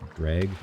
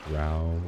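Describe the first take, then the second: First: The word rhymes with beg. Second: The word rhymes with cow. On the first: "I've always pronounced it dreg" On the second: "I've heard some people say growl, like dark elves from other fantasy worlds"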